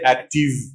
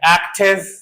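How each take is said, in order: First: The ending has a long 'eev' sound. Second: The ending has a short 'iv' sound. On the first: The speaker calls it wrong. "people say active" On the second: The speaker calls it right. "it is Ev"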